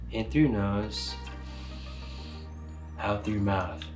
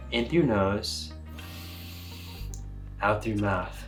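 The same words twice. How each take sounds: The two takes are said the same way.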